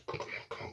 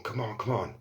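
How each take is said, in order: First: Urgent whisper to himself; whispered pleading. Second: Muttered pleading. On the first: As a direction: whisper it, willing the fuse on. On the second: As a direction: mutter it under your breath, still hoping. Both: Retold or imitated. Willing the pot to go off.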